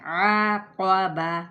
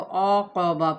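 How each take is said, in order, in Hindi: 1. पहला स्वर खुला और बारीक है, जैसे ah। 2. पहला स्वर गोल है, जैसे aw। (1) "औ औ करके नहीं अदा करना है" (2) "औक़बा पढ़ देते हैं, जो कि गलत तरीका है"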